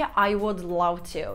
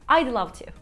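First: "I would" is said as two full words. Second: "I would" is contracted to "I'd". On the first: "I would love to değil" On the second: "Burada I'd love to diyebilirim"

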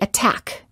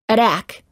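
First: The T is a crisp, released T sound. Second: The T is a quick, soft D-like sound. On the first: The speaker calls it right. "we say attack" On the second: The speaker calls it wrong. "We don't say attack"

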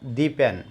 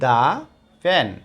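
First: 'The' is said with a long 'ee' vowel. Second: 'The' is said with a short 'uh' vowel. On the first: The speaker calls it wrong. "Not দি pan" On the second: The speaker calls it right. "এটার উচ্চারণ হবে দা pan"

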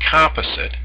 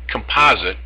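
First: It is said the Canadian way. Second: It is said the American way. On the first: "which is the Canadian phrase" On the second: "which is how the Americans pronounce it"

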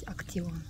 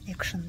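First: It is read letter by letter, like 'aktsion'. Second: It is said the English way, like 'action'. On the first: "если прям по буквам читать" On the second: "если по-английски, наверное, произносить"

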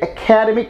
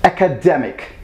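First: The stress falls on the second syllable. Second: The stress falls on the third syllable. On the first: The speaker calls it wrong. "you actually put stress on care" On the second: The speaker calls it right. "you're meant to put stress on dare"

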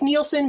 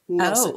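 First: The first syllable rhymes with kneel. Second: The first syllable rhymes with nil. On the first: The speaker calls it wrong. "it sounds like Nielsen, but it's not" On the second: The speaker calls it right. "It's N-I-L-S-E-N. Nilsen"

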